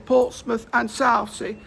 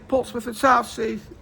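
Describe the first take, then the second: First: The phrase is drawn out slowly. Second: The phrase is said at normal speed. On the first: The train continues past this station. "he will say it slowly if it's not terminating there" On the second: The train terminates at this station. "he'll just say Portsmouth and Southsea as any normal person would"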